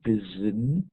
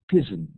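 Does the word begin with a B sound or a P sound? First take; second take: B; P. First: The word begins with a B sound. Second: The word begins with a P sound. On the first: It is the original English form. "rather than bizin" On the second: It is the form used by speakers whose languages lack this sound. "it's easier to change the B to a P"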